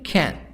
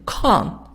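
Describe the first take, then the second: First: It is said with an American accent. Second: It is said with a British accent.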